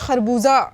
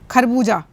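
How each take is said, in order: First: It starts with a throaty friction sound. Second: It starts with an aspirated k stop. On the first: The speaker calls it right. "तो हमें यहाँ पे खरबूजा कहना है" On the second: The speaker calls it wrong. "खे के बजाय खा बोल रहे होते हैं"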